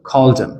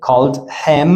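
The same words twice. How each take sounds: First: "called him" as "call-dim"; one joined called him, no H; dropped H. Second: "called him" with a full H; called and him as two words; unlinked form. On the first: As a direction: link called straight into him. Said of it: "we drop the H". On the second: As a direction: pronounce the H of him. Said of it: "We don't say". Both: Shown as a demonstration.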